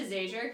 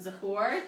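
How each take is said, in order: First: The surname is pronounced like Zager. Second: The surname is pronounced like Zahor. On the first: This is the pronunciation adopted after marriage. "to Zager" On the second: This is the family's original pronunciation. "she changed the pronunciation from Zahor"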